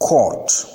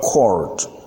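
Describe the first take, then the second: First: It is said in a British accent. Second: It is said in an American accent. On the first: "in British English" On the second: "in American English"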